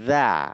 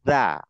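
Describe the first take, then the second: No difference in how they are said.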